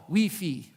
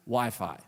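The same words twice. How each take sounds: First: Wi-Fi said "wee-fee", both vowels as ee; movie's pronunciation. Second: Said in the usual way. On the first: Shown as a demonstration. Pastor showing the movie's name: Wi-Fi as "wee-fee". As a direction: say Wi-Fi as "wee-fee", not "why-fye". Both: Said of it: "or as we know it as".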